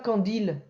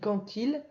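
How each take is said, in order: First: No t sound links the two words. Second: A t sound links the two words. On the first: The speaker calls it wrong. "On dit pas" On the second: The speaker calls it right. "on fait quand même un T"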